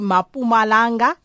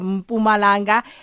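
First: The name starts with a full 'ma' syllable. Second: The name starts with a bare 'm' sound. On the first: The speaker calls it wrong. "I still hear people say Mapumalanga" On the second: The speaker calls it right. "instead of Mpumalanga"

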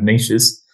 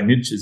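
First: It is said with a non-American pronunciation. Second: It is said with an American pronunciation.

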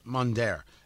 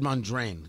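First: The name ends without an n sound. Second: The name ends with an n sound. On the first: The speaker calls it right. "That's his name" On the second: The speaker calls it wrong. "I said Mondrain. Yeah, I always get the N moved around"

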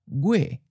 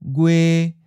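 First: The pitch starts high and falls. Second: The pitch stays mid and level. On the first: This is how it sounds in a general southern accent. "in a general southern accent, it may sound almost like a high falling" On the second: This is how it sounds in some other regions. "a mid flat"

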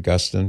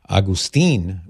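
First: The name is said with English pronunciation. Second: The name is said with Spanish pronunciation. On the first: This is how the speaker's family says it. "we pronounce it Augustine" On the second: This is how it is said in Spanish. "how it's pronounced in Spanish"

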